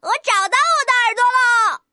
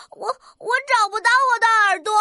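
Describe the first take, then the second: First: Delighted little rooster's exclamation; happy cheering. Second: Stammered, mildly tearful complaint; sad little rooster. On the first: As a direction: celebrate a joyful discovery. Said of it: "小公鸡开心地欢呼起来". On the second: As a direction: play a child upset at losing something. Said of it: "怎么这么难过的样子呀". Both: Acted.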